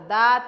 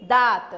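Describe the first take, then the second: The two takes are said the same way.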